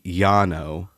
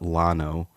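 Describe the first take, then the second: First: The name is said with a Spanish pronunciation. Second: The name is said with an English pronunciation. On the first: This is how the name ought to be said. "it should be Llano, ... because it's two L's. It's Spanish" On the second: This is how locals commonly say the name. "A lot of the time, people call it Llano, which is funny"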